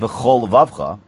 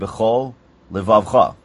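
First: The two words run together without a break. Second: A small break separates the two words. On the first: The speaker calls it wrong. "you don't say bechol levavcha" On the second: The speaker calls it right. "you say bechol Levavcha"

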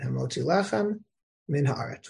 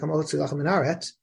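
First: There is a pause between lechem and min. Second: Lechem and min run together without a pause. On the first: The two words stay clearly separate. The speaker calls it right. "You should pause between the word lechem and min" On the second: The two words sound like one word. The speaker calls it wrong. "if you say it quickly, if you don't pause, it sounds like"

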